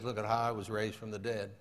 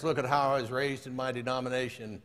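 First: Low, soft, understated answer; lightly voiced Jesus. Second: Understated boast in an even recital; lightly voiced boasting man. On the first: Jesus answers the boasting man, low and quiet. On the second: Man tells Jesus of his denomination, mildly boastful. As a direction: lightly play the self-satisfied churchgoer.

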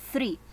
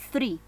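Both takes have the same delivery.

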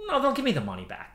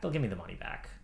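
First: Said in the usual way. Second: Softer, lower repeat to himself; quieter repeat. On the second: Real, not acted. Reassuring himself the refund will come, softer. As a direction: murmur it again to reassure yourself.

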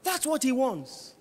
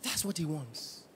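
First: Shouted. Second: Much lower and soft; hushed. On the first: Pastor warning the church, shouting. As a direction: shout it out slowly. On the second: Pastor warning the church, softly. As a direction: drop it to a near hush. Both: Real, not acted.

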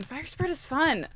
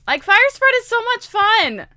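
First: Said in the usual way. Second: Higher, drawn-out enthusiasm; gleeful emphasis. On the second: Real, not acted. Player tells viewers how fun fire spread is, gleeful. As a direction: gush about it, stretching the words. Repeats it with mounting relish.

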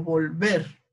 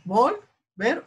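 First: "volver" stressed on the last syllable, vol-VER; acento en VER. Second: "Volver" wrongly stressed on the first syllable, VOL-ver; acento en VOL. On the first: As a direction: lean on VER. ("volver" con acento final, vol-VER) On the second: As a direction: lift VOL, drop "ver". ("Volver" con acento en VOL) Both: Shown as a demonstration. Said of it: "¿Ahí cuál será?".

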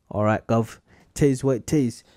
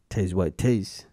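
First: Put-on a light, half-hearted British accent on all right Gov; mock British accent. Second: Said in the usual way. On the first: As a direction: toss off a playful fake British accent. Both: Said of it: "That was kind of a Australian accent".

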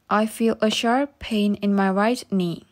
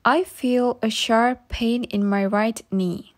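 The two takes are said the same way.

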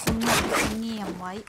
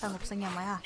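First: Said in the usual way. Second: Softly, reminding herself to keep quiet; hushed. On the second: Shown as a demonstration. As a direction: drop the voice low and quiet. (พูดเบาๆ แบบกระซิบเตือนตัวเอง)

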